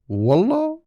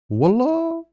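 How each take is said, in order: First: The word sounds high and rising, surprised. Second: The same.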